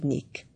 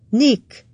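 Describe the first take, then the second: First: Said in the usual way. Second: Nick! called out high and loud; sharp call of his name. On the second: A narrator's reading. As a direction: snap his name to stop him. Kate cutting him off. (Nick! élesen, hangosan kiáltva)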